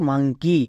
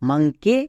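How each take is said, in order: First: The word ends with an 'ee' vowel. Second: The word ends with an 'eh' vowel. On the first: The speaker calls it right. "হস্যিকার উচ্চারণ দিচ্ছে" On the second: The speaker calls it wrong. "এটা হওয়া উচিত ছিল মাংকে"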